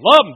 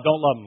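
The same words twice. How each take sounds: First: "Love" shot high and very loud; emphatic affirmation. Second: "Don't" stressed at ordinary pitch, falling; dropped denial. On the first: Preacher acting out Peter's wavering, "Love" shouted high. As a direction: swoop up hard on "Love", then fall. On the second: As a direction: come straight down for "Don't love him". Peter's wavering acted as alternation. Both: Acted.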